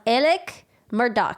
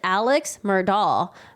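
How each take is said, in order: First: The first name ends with a k sound. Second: The first name ends with a ks sound. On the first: This is how the name is actually said. The speaker calls it right. "his name is pronounced" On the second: This is how the name looks when read. The speaker calls it wrong. "I would have pronounced it"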